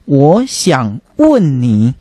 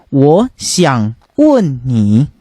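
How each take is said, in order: First: The verb is said with the 'ask' tone. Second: The verb is said with the 'ask' tone.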